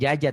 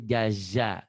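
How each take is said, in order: First: The second consonant is a j sound. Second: The second consonant is a z sound. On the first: The speaker calls it wrong. "Jaja bukan jaja" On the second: The speaker calls it right. "tapi jaza. Ini zai"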